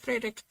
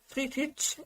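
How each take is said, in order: First: The name is said with an English-style pronunciation. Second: The name is said with a German pronunciation. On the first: "I don't know if it's the American or English way when I say Fredrik" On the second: "Friedrich is the original German way"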